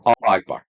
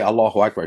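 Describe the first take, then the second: First: The first word ends with no vowel before the second. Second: A short vowel joins the first word to the second. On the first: The speaker calls it wrong. "Doesn't even know how to say it" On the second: The speaker calls it right. "he didn't even say Allahu Akbar"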